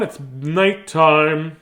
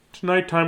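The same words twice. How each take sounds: First: Slow, stretched "nighttime"; sleepy stretched-out announcement; drawn-out. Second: Said in the usual way. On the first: Shown as a demonstration. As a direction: draw out nighttime very slowly.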